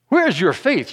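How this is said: It is said in an impatient, exasperated tone. The asker is annoyed with the listeners. "Was he impatient?"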